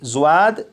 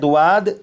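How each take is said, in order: First: It starts with z followed by a w sound. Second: It starts with d followed by a w sound. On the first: "जुआद या दुआद नहीं पढ़ेंगे" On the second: "जुआद या दुआद नहीं पढ़ेंगे"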